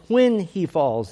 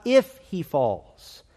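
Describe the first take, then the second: First: "When" hit hard and drawn out, then falling away; slow, emphatic "When" at the front; stress on When. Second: Slow, contrastive emphasis on "If"; stress on If. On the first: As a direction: lean firmly on "When". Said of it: "It is not, "If he falls". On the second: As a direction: hit the word "If" and slow down. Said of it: "It is not". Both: Shown as a demonstration.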